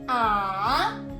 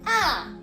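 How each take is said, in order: First: It is said with the third tone. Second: It is said with the fourth tone.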